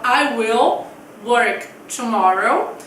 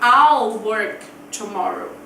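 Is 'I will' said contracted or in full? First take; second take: in full; contracted. First: 'I will' is said as two full words. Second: 'I will' is contracted into one syllable. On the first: "A gente fala" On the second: "se for na forma abreviada, eu vou falar"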